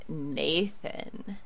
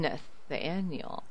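First: Low, breathy seductive whisper; sexy voice. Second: Low, soft and slow seductive; sexy voice. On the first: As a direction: purr the name seductively. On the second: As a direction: breathe the name out slowly, seductive. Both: Shown as a demonstration. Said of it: "say it in a sexy voice".

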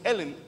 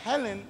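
First: "Helen" said as "Elen", no H; silent H. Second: "Helen" with an audible breathy H; H pronounced. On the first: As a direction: drop the H from "Helen". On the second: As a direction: sound the H at the start of "Helen". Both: Shown as a demonstration. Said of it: "Porque la H es muda".

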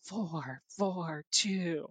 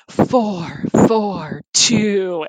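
First: Softer sultry ad read; sexy voice. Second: Slow sultry ad read; breathy seductive radio voice; sexy voice. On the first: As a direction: purr the brand name seductively. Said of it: "the four four two sexy voice". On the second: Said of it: "do the four four two ads in a sexy voice". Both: Retold or imitated.

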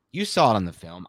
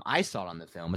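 First: YOU picked out, the rest falling away; "you" stressed to point at the listener. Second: Softer line with I picked out; "I" stressed, the rest dropping away softly. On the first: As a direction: lean on "you", as against me. Contrasts listener with himself. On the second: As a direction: lean on "I", as in me too. Contrasts himself with listener. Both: Real, not acted.

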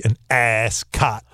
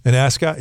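First: Ascot drawn out slowly, first syllable exaggerated; mock first-syllable stress. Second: Said in the usual way. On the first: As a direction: imitate him leaning hard on the AS of ascot. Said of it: "why did you emphasize the first syllable". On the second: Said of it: "You were like".

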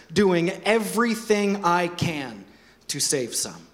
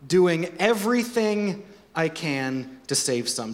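First: Slow, weighty scripture reading; emphatic reading. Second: Everything stressed, slow repeat; slow echo with "everything" leaned on. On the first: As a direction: lean on each word to make it land. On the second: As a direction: press down on "everything". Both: Shown as a demonstration. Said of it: "listen to this".

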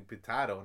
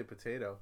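First: "potato" said puh-TAH-toh; mock British pronunciation. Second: "potato" said puh-TAY-toh; usual pronunciation. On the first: Co-host mocks the Brit's logic, puh-TAH-toh "potato". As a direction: say "potato" with an AH in the middle. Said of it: "With your dumb logic, it's usually potato". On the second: Co-host asks how you say it, puh-TAY-toh "potato". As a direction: say "potato" with an AY in the middle. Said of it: "how do you say potato". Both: Shown as a demonstration.

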